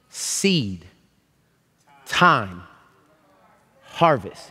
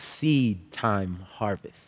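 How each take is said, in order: First: The phrase is spoken at a somewhat slower pace. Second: The phrase is spoken at a fairly quick pace.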